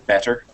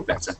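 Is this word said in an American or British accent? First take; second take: American; British. First: It is said in an American accent. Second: It is said in a British accent. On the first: "in America they'll say better" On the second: "I'm British, so I say better"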